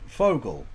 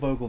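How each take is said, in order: First: The name begins with an F sound. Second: The name begins with a V sound. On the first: The speaker calls it wrong. "you want me to pronounce it Fogel" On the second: The speaker calls it right. "but it's clearly Vogel"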